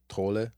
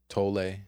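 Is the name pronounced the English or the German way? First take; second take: German; English. First: The name is pronounced the German way. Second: The name is pronounced the English way.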